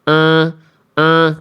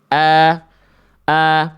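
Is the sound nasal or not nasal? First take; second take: nasal; not nasal. First: The sound is pushed through the nose. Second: The sound is made without nasal resonance. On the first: "ini hamzah yang dengan sengau" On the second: "Ini hamzah yang tanpa sengau"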